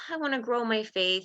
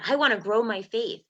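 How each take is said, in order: First: The voice sounds heavy, discouraged and lacking. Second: The voice sounds hopeful and forward-looking. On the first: The speaker feels they are not good enough. "all I feel is pain and not enough" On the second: The speaker wants to develop and grow. "I'm wanting to grow it out of wanting development"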